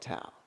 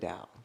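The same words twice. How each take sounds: First: The word begins with a T sound. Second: The word begins with a D sound. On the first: The speaker calls it wrong. "it looks like Tao" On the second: The speaker calls it right. "it's actually Tao"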